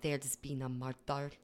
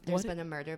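First: It is said in an imitated regional accent. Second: It is said in the speaker's own accent.

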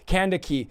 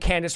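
First: The name ends in a 'kee' sound. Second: The name ends in an 's' sound. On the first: The speaker calls it right. "but it's really Candaki" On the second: The speaker calls it wrong. "let's just say Candace for the sake of pronunciation"

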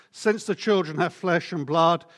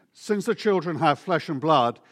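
The two takes are said the same way.

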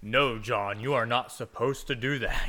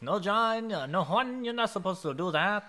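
First: It is said in a deep, booming voice. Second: It is said with a Hispanic accent.

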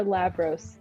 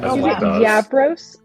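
First: The name begins with an L sound. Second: The name begins with a Y sound. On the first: The speaker calls it right. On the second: The speaker calls it wrong. "But they're not pronounced like a Y?"

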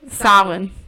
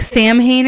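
First: The first syllable sounds like 'sow'. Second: The first syllable sounds like 'sam'. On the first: The speaker calls it right. "So like sow, like a female cow, and then it's like an E-I sound" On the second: The speaker calls it wrong. "Which is how it's spelled, but yeah. That's not how you pronounce it"

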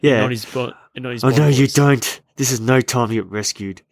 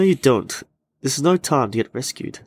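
First: The line is said in a sinister, menacing tone. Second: The line is said in a plain, neutral tone.

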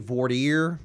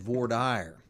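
First: It is said with a French-style pronunciation. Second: It is said with an anglicized pronunciation. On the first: The speaker calls it right. "It's actually voir dire. It's like French" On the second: The speaker calls it wrong. "how I said"

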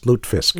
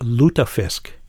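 First: The middle E is silent, two syllables. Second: The middle E is pronounced as a syllable. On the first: This is how the family says it. "That E in there, forget about it" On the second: This is how most people say it. "everybody says lutefisk"

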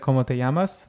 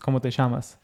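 First: It is said in a standard Spanish accent. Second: It is said in an Argentine accent.

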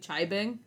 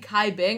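First: The name begins with a ch sound. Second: The name begins with a k sound. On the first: The speaker calls it right. "I'm pretty sure it was supposed to be" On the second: The speaker calls it wrong. "I was saying"

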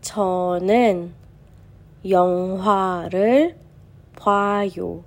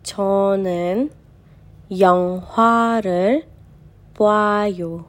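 Both takes have the same delivery.

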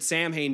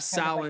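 First: It is read as spelled, ending in 'hain'. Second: It ends with a sound like 'win'. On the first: The speaker calls it wrong. "I've always just said Samhain because I had no clue that there was a different way" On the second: The speaker calls it right. "Like a win at the end"

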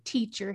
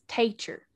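First: It is said in a neutral American accent. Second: It is said in a Southern American accent. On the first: "my brother doesn't say teacher" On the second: "So Southern accent is real. ... he says teacher"

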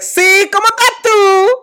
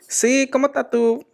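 First: It is said very loudly. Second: It is said at a normal volume.

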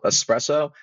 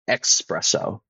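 First: The word begins with a plain 'es' sound. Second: The word begins with an 'ex' sound. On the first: The speaker calls it right. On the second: The speaker calls it wrong.

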